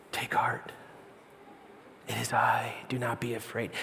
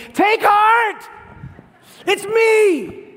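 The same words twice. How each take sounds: First: Soft, low near-whisper; calm, tender, compassionate. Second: High, full-force shout; screaming over chaos. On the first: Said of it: "very calm and tender, compassionate voice". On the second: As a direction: yell to be heard over a roaring storm. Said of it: "He's screaming over the chaos". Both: Acted.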